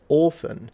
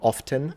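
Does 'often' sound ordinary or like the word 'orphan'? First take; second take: like orphan; ordinary. First: It is said in a posh way, sounding like 'orphan'. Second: It is said in an ordinary modern way. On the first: "The Queen says orphan, and it sounds like an orphan" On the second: "you would say often"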